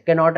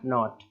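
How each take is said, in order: First: The word begins with a k sound. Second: The word begins with an n sound. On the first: The speaker calls it wrong. "नहीं बोलना है" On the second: The speaker calls it right. "इस तरीके से"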